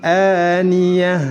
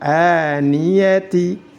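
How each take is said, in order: First: The word ends in a soft h. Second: The word ends in ti. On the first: The speaker calls it right. "tetap dibaca sukun dan dirubah menjadi huruf ha" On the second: The speaker calls it wrong. "Tidak boleh dibaca"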